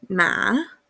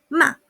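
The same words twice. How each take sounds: First: The pitch starts high, dips, then rises slightly. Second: The syllable is short and forceful. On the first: It means horse. "yo parto en un punto alto, bajo y termino en un punto un poquito más alto" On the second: It means to scold. "bastante cortito y fuerte"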